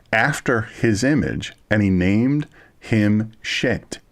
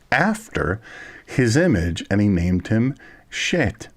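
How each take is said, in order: No difference in how they are said.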